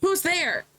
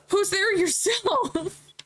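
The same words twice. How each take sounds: First: Higher, sharp call of who's there; character challenge. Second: Higher, slow teasing comeback; cocky retort. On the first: Character calling out to a stranger, higher. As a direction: call out into the dark. Voicing a cutscene line. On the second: Stranger answering the challenge, higher and slow. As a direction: throw the question back slowly. Voicing the reply. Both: Acted.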